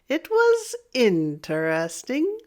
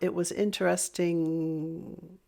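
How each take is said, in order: First: The pitch goes down and then up. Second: The pitch stays level and then stops. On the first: The speaker has some reservation or doubt. "if I use a down and up" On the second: The speaker has more to say. "don't use an up or down tone"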